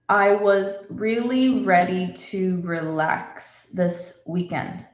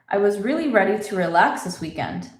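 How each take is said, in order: First: The sentence is spoken slowly. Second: The sentence is spoken quickly. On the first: "Let's say it slowly" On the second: "And a little faster"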